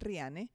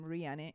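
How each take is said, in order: First: The name is said with Spanish sounds. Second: The name is said with English sounds. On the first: "In Spanish is Riane" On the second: "my name Riane in English"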